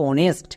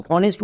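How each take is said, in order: First: অনেস্ট said with no h sound, starting on the vowel; silent h. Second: হনেস্ট said with a sounded h at the start; wrong pronunciation. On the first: Teacher models অনেস্ট for students with a silent h. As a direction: say অনেস্ট as o-nest, the h left silent. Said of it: "আমরা কিন্তু এই ওয়ার্ডকে হনেস্ট উচ্চারণ করব না". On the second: Teacher shows students the wrong হনেস্ট with a sounded h. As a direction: voice the h in হনেস্ট as the mistake to avoid. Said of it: "এই ওয়ার্ডকে হনেস্ট উচ্চারণ করব না". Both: Shown as a demonstration.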